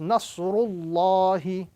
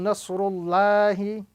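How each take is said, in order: First: Allah is said with a round, full sound. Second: Allah is said with a flat, thin sound. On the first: The speaker calls it right. "the correct pronunciation in this formation is" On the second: The speaker calls it wrong. "as opposed to"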